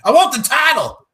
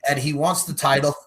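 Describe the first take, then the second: First: High, loud mock Irish accent; Irish accent attempt. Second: Said in the usual way. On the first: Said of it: "But Irish".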